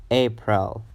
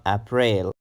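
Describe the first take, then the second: First: April as AY-prul, reduced ending; correct first-syllable stress. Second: April mispronounced as "ap-RAIL"; wrong pronunciation. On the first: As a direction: say April with long A and weak second syllable. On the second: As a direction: say April with short A and long "rail" ending. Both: Shown as a demonstration. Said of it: "So it's not April".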